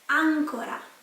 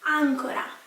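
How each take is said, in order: First: The stress is on the first syllable. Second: The same.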